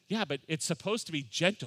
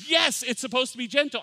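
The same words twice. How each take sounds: First: Said in the usual way. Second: High, loud exclaimed yes; mock outburst, pitched way up; emphatic retold agreement. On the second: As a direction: burst out in exasperated agreement. Brother-in-law's emphatic reply, retold.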